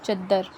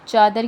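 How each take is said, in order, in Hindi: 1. पहला स्वर छोटा है, और d दोहरा है। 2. पहला स्वर लंबा है, और d एक है।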